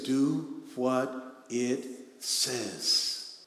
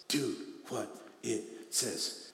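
First: Very slow, deliberate read; drawn-out scripture command; slow emphatic. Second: Much softer, falling repeat; hushed echo of the command. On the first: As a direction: linger on every word. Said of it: "repeated quote, slow". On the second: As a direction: let it sink in quietly. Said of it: "repeated quote, soft". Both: Acted.

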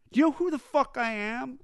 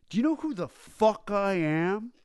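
First: Mock-drunk yell pushed much higher; shrill drunken rage. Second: Mock-drunk rock star yelling, higher; raging drunk demanding to be recognized; drunken rage. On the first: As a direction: screech it, outraged nobody knows him. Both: Drunk rocker rants at bartender.

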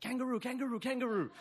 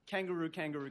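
First: Put-on high, squealing kid chant of kangaroo; excited kids. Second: Said in the usual way. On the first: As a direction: chant it like thrilled little kids spotting a kangaroo. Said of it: "really excited to be here". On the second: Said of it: "gets pretty old pretty quickly".

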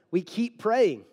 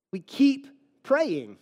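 First: Said in the usual way. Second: Slow, with "keep" leaned on hard; stress on keep. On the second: Shown as a demonstration. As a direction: drag it out and press on "keep".

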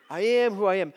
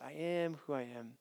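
First: "I am who I am" said louder, stress on "am"; emphatic. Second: "I am who I am" said softly, falling away. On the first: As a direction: declare "I am who I am" firmly. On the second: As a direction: murmur "I am who I am" low and quiet. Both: Shown as a demonstration. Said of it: "two different ways you can understand that".

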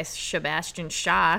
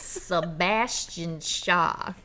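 First: "Sebastian Shaw" slurred, first S sliding into sh; mispronounced name. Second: "Sebastian Shaw" very slowly, with a crisp opening S; careful pronunciation. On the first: Real, not acted. Host fumbling the villain's name "Sebastian Shaw", slurred sh. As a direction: stumble "Sebastian Shaw" into a run of sh sounds. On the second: Shown as a demonstration. Retrying the hard name "Sebastian Shaw", slow and careful. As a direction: stretch out "Sebastian Shaw", keeping the first S clean. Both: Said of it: "worst time trying to say that".

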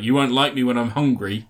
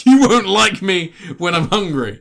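First: Said in the usual way. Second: Higher, louder, slow hammed-up menace; mock dramatic threat. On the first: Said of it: "He's like". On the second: Mocking Morbius's Hulk-style line to a friend, hammed-up and slow. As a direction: ham up the villain's big threat line. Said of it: "I'll play on that famous Hulk line".

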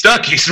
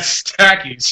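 First: Stucky's said with u as in cup, STUCK-ees; corrected name. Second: Stacky's said with a as in cat, STACK-ees; misread name. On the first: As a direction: fix it to Stucky's, short u. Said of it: "Stucky's, my bad". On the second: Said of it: "At Stucky's". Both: Real, not acted.

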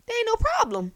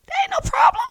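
First: High and bright, "problem" falling to settle it; same delight but landing firmly down on "problem"; happy. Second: Squealing very high with delight, rising at the end; a giddy, sky-high yes with the word "problem" pitched up as a question; overjoyed. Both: Pretend. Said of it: "I would be so happy".

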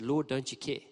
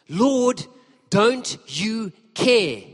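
First: Said in the usual way. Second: High, loud, drawn-out complaint; exasperated outburst. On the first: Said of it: "and she said". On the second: Retold or imitated. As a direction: snap it at Jesus, stretching care. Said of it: "she snaps".

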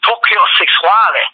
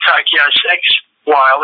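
First: "Tokyo Sex Whale" with Sexwale said sex-WAH-lee; "Tokyo Sex Whale" as the South African surname; right pronunciation. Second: "Tokyo Sex Whale" said as sex whale, English style; "Sex Whale" pronounced as two English words; wrong pronunciation. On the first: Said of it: "it's the Tokyo Sex Whale". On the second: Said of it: "it ain't the Tokyo Sex Whale". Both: Shown as a demonstration.

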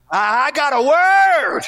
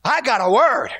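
First: Higher, louder, slowed right down on word; building preacher's cry. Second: Said in the usual way. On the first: Acted. Prodigal son crying out his realization. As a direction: stretch out the word like a revelation.

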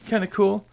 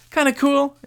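First: Said in the usual way. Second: Kinda cool said up high and bright; higher excited repeat. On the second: Real, not acted. Repeats phrase, second higher.

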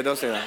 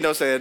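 First: Laughing aside. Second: Said in the usual way. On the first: Real, not acted. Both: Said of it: "I'm just kidding".

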